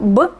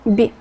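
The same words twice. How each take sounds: First: The consonant is hard, not palatalized. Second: The consonant is soft and palatalized. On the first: "no sería" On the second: "un sonido blando, palatalizado, suave"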